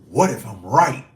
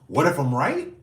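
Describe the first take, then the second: First: It sounds sure and confident. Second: It sounds doubtful and questioning.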